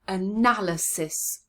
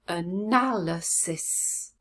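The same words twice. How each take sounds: First: The word is said quickly, as one unit. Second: The word is said slowly, syllable by syllable.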